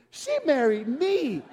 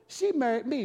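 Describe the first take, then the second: First: «she» drawn out slowly with a falling tune; stress on she. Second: Said in the usual way. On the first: Shown as a demonstration. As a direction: linger on «she» proudly. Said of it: "What an idiot".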